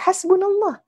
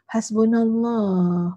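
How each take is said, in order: First: It sounds firm and confident. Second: It sounds flat and weak.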